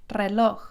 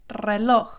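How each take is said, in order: The two takes are said the same way.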